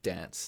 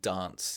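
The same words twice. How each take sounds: First: It is said the usual other Australian way. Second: It is said the South Australian way. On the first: "instead of dance" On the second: "So you'd hear people saying dance"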